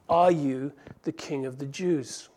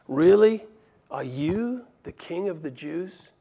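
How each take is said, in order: First: It is asked in a plain, neutral tone. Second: It is asked in a cynical, mocking tone.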